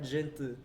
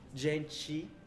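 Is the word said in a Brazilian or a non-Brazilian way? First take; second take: non-Brazilian; Brazilian. First: The word is said with a non-Brazilian pronunciation. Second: The word is said with a Brazilian pronunciation. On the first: The speaker calls it wrong. "and not gente" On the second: The speaker calls it right. "they say, um, gente"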